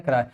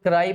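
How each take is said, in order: First: "क्राई" as English cry, one syllable; one-syllable pronunciation. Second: "क्राई" misread with a separate long ee ending; mispronounced cry. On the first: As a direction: say "क्राई" as "kraay", a single gliding vowel. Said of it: "कई लोग क्राई पढ़ते होंगे तो गलत हो जाएगा, pronunciation सही होनी चाहिए". ("क्राई" को एक सिलेबल में "क्राय" बोलें) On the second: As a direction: say "क्राई" as "kraa-ee", mimicking a learner's error. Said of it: "कई लोग क्राई पढ़ते होंगे तो गलत हो जाएगा". ("क्राई" को गलती से "क्रा-ई" पढ़ें) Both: Shown as a demonstration.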